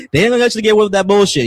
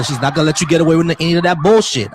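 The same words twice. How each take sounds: First: A sharp heads-up to trolls; forceful warning. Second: Said in the usual way. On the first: Real, not acted. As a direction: fire it off at the chat with attitude. Repeats warning to chat, louder.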